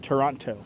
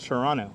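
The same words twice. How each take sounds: First: The second t sound is pronounced. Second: The second t sound is dropped. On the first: The speaker calls it wrong. "not Toronto" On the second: The speaker calls it right. "I always remember not to pronounce the second T. It's Toronto"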